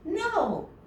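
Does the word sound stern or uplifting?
uplifting. The word sounds light and uplifting. The speaker calls it right. "a no that's a little bit more uplifting"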